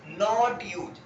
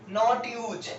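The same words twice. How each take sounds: No difference in how they are said.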